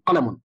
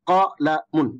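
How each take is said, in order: First: The syllables are said quickly and joined. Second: The syllables are said slowly and separately.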